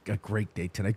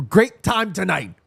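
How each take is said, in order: First: Said in the usual way. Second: Great time tonight, slower and higher, GREAT leaned on; slowed-down emphatic correction; corrected phrase. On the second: Real, not acted. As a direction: fix the slip with weight on great.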